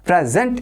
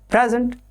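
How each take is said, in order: First: The stress is on the second syllable. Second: The stress is on the first syllable. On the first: It is a verb meaning to give or show. "So the stress changes to sent" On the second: It is a noun meaning a gift. "When you are talking talking of a gift"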